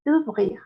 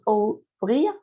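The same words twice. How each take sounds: First: "ouvrir" starting with a single oo sound; higher "ouvrir", O and U merged into oo; correct OU as U. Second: "ouvrir" starting with O heard, as oh-oo-vreer; "ouvrir" read letter by letter with an open O; wrong split OU. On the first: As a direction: say "ouvrir" as oo-vreer. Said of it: "Las dos letras suenan como una U". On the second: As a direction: pronounce both letters O and U in "ouvrir". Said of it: "No decimos ouvrir". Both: Shown as a demonstration.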